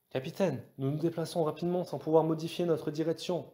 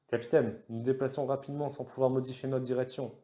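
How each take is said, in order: First: High-pitched, urgent navigator; urgent report. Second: Mildly urgent navigator; urgent report. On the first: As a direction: call it in with eager urgency. (voix aiguë, empressée) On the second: (légèrement empressé) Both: A narrator's reading. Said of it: "déclara Kosa avec empressement".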